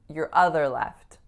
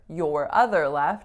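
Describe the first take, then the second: First: The word 'your' is reduced to 'yer'. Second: The word 'your' has its full vowel. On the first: "just like you could reduce for to fur" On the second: "I'm not saying your"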